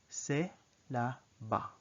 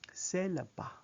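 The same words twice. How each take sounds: First: The phrase is said at a slow speed. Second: The phrase is said at a normal speed.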